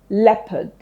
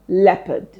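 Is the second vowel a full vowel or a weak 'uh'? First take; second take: weak uh; weak uh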